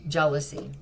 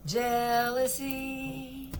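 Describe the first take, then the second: First: Said in the usual way. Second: Jealousy stretched very slowly, higher; drawn-out Jealousy. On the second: Shown as a demonstration. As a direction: linger on every sound of Jealousy. Drawn-out repeat of the word.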